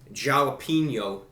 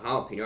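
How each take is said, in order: First: It begins with an English J sound. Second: It begins with a soft H sound. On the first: The speaker calls it right. "the correct pronunciation is the jalapeno double" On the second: The speaker calls it wrong. "not the jalapeno"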